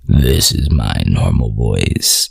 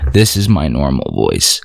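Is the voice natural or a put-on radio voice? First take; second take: radio; natural. First: It is said in a deep, projected radio voice. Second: It is said in a natural speaking voice.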